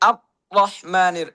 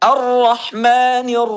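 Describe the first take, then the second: First: The r sound is abruptly cut off. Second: The r sound is held continuously. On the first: The speaker calls it wrong. "আওয়াজ বন্ধ হয়ে যায়" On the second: The speaker calls it right. "আওয়াজটা জারি থাকবে"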